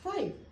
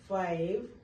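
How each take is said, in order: First: The pitch falls at the end. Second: The pitch rises at the end.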